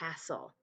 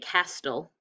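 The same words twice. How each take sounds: First: The T sound is silent in the middle. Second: The T sound is pronounced in the middle. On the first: The speaker calls it right. "You don't hear the T" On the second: The speaker calls it wrong. "We don't say castle"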